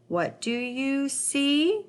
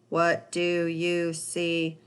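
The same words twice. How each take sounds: First: The voice rises slightly at the end. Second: The voice stays flat and robotic throughout. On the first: The speaker calls it right. "my voice went up just a little bit at the end" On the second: The speaker calls it wrong. "read it like a robot"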